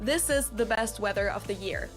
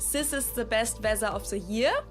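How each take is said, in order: First: The 'th' sounds are pronounced as true th. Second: The 'th' sounds are replaced by s or z. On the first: "Instead of" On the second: "replace the T H with an S or a Z sound"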